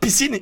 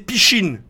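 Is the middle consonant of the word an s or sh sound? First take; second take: s; sh. First: The middle consonant is a plain s sound. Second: The middle consonant is a sh sound. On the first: This is the normal way to say it. "au lieu de dire piscine" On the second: Someone else said it with a speech quirk. "il disait pichine"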